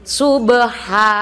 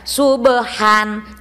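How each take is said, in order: First: The word ends on a long vowel. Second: The word ends with an n sound. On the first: The speaker calls it right. "Baca jadi subha gitu ya" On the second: The speaker calls it wrong. "nggak boleh baca subhan"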